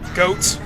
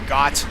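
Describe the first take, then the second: First: The name sounds like the animal word goat. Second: The name sounds like the word got. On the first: "I usually go with goat because, you know, a goat is a four-legged animal" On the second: "whichever way you want to pronounce it"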